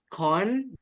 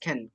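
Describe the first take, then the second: First: The vowel is an open 'o' sound. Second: The vowel is a short 'e' sound. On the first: The speaker calls it wrong. "It's not con" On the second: The speaker calls it right. "it should be pronounced ken"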